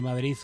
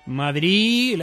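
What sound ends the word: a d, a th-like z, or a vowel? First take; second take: z; vowel. First: The word ends in a th-like z sound. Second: The word ends on a stressed i vowel. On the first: "si dejamos resbalar el aire sobre la lengua, nos sale Madrid con Z"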